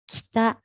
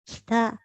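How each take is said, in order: Both takes have the same delivery.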